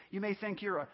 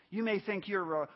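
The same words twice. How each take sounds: The two takes are said the same way.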